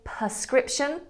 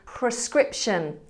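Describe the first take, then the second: First: The first syllable is said as 'per'. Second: The first syllable is said as 'pre'. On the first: The speaker calls it wrong. "We often say prescription as if it was spelt P E R" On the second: The speaker calls it right. "It's P R E, so it should be prescription"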